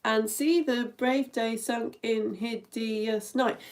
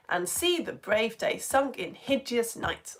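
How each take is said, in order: First: "hideous" in three separate syllables, hid-i-us; slow count, spelling out "hideous" as hid-i-us; counting every syllable. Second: "hideous" squeezed into two syllables, hid-yus; slow rhythmic reading with "hideous" as two syllables; fudged to fit. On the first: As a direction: step through the line, giving "hideous" three beats. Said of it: "It's eleven syllables". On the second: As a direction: keep the beat, running "hideous" together as hid-yus. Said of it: "I'd have just made hideous two syllables". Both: Shown as a demonstration.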